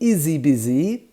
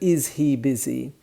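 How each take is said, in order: First: The words run together with no H sound. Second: The words are said separately with the H. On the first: "we'll say izzy" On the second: "instead of"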